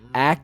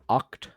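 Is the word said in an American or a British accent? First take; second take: American; British. First: The vowel sounds like the a in cat. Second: The vowel sounds like the o in hot.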